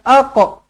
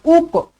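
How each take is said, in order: First: The word begins with an a vowel. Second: The word begins with a u vowel. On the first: "bukan aqa" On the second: "bukan uqa"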